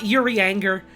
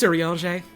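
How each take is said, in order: First: The name is said with English-style sounds. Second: The name is said with French-style sounds. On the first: The speaker calls it wrong. "it's it's not Urianger, which is what I thought it was for years" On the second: The speaker calls it right. "all of the elf names are like fake fantasy French"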